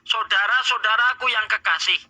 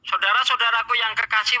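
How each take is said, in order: First: It is read slowly and deliberately. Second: It is read at a normal pace.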